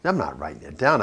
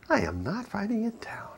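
First: Said in the usual way. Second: A hushed whispered refusal. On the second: Retold or imitated. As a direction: whisper it, higher and much softer. Husband repeats refusal in joke.

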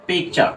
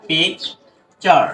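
First: Said in the usual way. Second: "পিকচার" very slow, with a gap between পিক and চার; split into syllables. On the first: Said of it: "আমরা কিন্তু এভাবে এটা ভাঙতে পারি". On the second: Shown as a demonstration. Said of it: "এভাবে এটা ভাঙতে পারি". ("পিকচার" দুই ভাগে ভেঙে, ধীরে)

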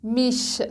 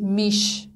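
First: میش ending in a soft German ich-sound. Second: میش with an ordinary hard "sh" at the end; wrong hard "sh". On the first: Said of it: "ش نرم هستش". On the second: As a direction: show the mistake, a plain "sh" in میش. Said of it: "نباید بگید میش". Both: Shown as a demonstration.

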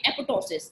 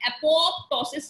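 First: Apoptosis said a-po-tosis, no p before the t; silent p. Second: Apoptosis with the second p clearly spoken, a-pop-tosis; second p sounded. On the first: Teacher giving students the right way, p silent. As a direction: drop the second p in apoptosis and glide straight to the t. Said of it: "एक पी जो है वो silent है". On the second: Teacher showing students the wrong way, p spoken. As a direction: say apoptosis the wrong way, pronouncing the p before the t. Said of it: "इसको आप apoptosis नहीं पढ़ेंगे". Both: Shown as a demonstration.

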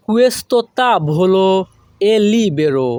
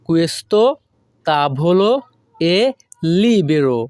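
First: Slow, careful Italian; slow model phrase. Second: "Questo" "tavolo" "è" "libero" said separately with pauses; broken word by word. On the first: Teacher modelling the Italian slowly for students. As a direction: draw it out for learners. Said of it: "model then broken". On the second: Teacher repeating the phrase word by word. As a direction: split into single words. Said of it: "broken repeat". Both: Shown as a demonstration.

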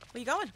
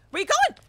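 First: Said in the usual way. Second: High, loud rising yell; chasing a survivor with a yell; shouted taunt. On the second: Real, not acted. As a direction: holler it after the runner. Taunting fleeing victim.

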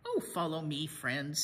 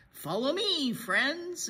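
First: Lower, easy reassurance; Donkey unbothered by the rickety bridge; calm leader. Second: Higher, louder bright call; rally the group forward; Donkey proudly leading the way; eager leader. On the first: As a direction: lead them gently on. Donkey leads across the bridge. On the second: Donkey leads the friends. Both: A narrator's reading.

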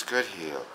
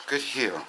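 First: Soft, low praise; calming. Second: Quiet soothing praise to the dog; softer, calm the dog down. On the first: Shown as a demonstration. Trainer turning dog's energy into calm, soft and low. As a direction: turn the energy down, quietly. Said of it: "I've gotta turn it into this". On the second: Real, not acted. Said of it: "I'm gonna slow it down".

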